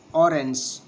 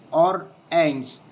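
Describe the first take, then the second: First: Said in the usual way. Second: Orange drawn out as o-range, first beat stressed; slower, syllables apart. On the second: Shown as a demonstration. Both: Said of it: "And the two syllables".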